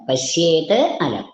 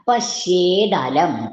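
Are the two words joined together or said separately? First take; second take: separate; joined. First: The words are split with a t sound. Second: The words run together with a d sound.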